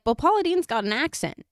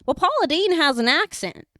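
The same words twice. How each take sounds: First: High Southern granny imitation; mock Southern indignation, pitched up; Paula Deen. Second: High, loud Southern granny imitation; hammed-up Southern protest, high and loud; Paula Deen. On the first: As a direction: put on a raised Southern twang. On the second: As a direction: exaggerate the Southern twang, pitched way up. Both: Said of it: "She's saying it like that".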